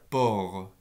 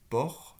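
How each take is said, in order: First: The r sound is voiced. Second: The r sound is voiceless. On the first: "je peux éventuellement faire port" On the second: "le re est sourd"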